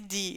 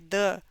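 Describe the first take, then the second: First: It begins with a plain d sound. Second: It begins with the tongue between the teeth. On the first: The speaker calls it wrong. "Não é de" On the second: The speaker calls it right. "é the; colocar o T H entre os dentes"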